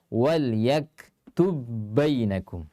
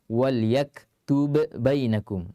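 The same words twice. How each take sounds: First: The first b merges into the second b. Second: The first b is released with an echoing bounce. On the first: The speaker calls it right. "Jadi harus dibaca" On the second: The speaker calls it wrong. "tidak boleh kita baca lagi"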